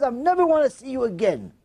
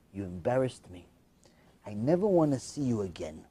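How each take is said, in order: First: Raised, incredulous quote; indignant retelling. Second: Low, soft, grave delivery; quiet rejection. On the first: Storyteller appalled at the rotten kid's words, high indignation. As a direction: throw the line back in outrage, pitched up. Narrator repeats it in outrage. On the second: Son disowning his mother after the party, quiet and low. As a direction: say it low and final. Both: Retold or imitated.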